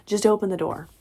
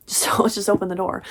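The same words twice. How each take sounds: First: Said in the usual way. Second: Laughing through the repeated line; cracking up while rereading it. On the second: Real, not acted. Reader cracking up at the book's line, laughing.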